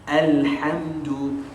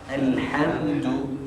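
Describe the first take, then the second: The two takes are said the same way.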